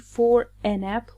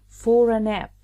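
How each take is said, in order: First: There is a pause between for and a. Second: The r runs straight into a without pause. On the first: The speaker calls it wrong. "we don't say for a nap. We don't pause between for and a" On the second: The speaker calls it right. "We connect them. So we connect R to A and pronounce it fora"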